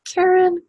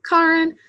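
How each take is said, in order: First: "Karen" with first vowel as in "care"; pronounced CARE-en. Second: "Karen" with first vowel as in "car"; pronounced KAR-en. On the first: Host unsure of an attendee's name, offering the CARE-en pronunciation. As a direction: say "Karen" to rhyme with "Sharon". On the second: Host offering the aunt's way of saying it, KAR-en. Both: Shown as a demonstration. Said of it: "I'm never sure".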